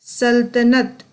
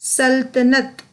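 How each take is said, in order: The two takes are said the same way.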